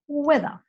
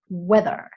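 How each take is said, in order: First: The final r is barely pronounced or dropped. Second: The final r is pronounced strongly. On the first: "the British don't tend to say the letter R very strongly, if at all" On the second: "the letter R comes across much more strongly as well"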